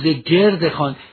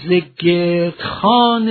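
First: Gerd and khan are joined by a linking vowel. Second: Gerd and khan are joined without a linking vowel. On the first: It means around the tray. The speaker calls it wrong. "نخوانیم ز گرد خان، تصور کنیم دور خان است" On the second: It means a round tray. The speaker calls it right. "ز گرد خان یعنی خان گرد"

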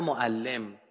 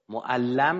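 First: The vowel before the final m is 'i'. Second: The vowel before the final m is 'a'. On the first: Someone who teaches. "تعلیم دهنده" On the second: Someone who has been taught. "تعلیم داده شده"

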